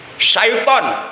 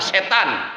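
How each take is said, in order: First: It is said with 'sy' and 'ai', 'syaiton'. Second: It is said as two syllables, 'setan'. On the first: This matches the Arabic spelling. The speaker calls it right. "sesuai dengan tulisan huruf Arabnya" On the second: This is the common everyday pronunciation. The speaker calls it wrong. "kebanyakan orang menyebutnya setan"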